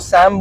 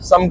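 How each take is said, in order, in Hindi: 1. स्वर 'cat' जैसा सुनाई देता है। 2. स्वर 'cup' जैसा सुनाई देता है। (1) "कई बार लोग इसको सैम बोलते हैं" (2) "उसको प्रोनाउंस सम करते हैं"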